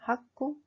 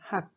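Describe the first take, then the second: First: The final consonant is released with an added vowel. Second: The final consonant is cut short without release. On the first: The speaker calls it wrong. "Ce n'est pas hakku" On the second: The speaker calls it right. "c'est hak. Comme si vous coupez la fin rapidement"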